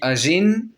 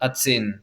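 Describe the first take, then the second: First: The middle consonant is a soft zh sound. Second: The middle consonant is a ts sound. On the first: This is how the speaker personally says it. "moi je dis Agen" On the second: This is how it is said locally. "Localement, donc, Agen, il dit ça Atsen"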